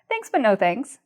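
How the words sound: The refusal sounds soft, warm and polite. The offer is declined gently. "because of the way I use my voice, it doesn't sound rude"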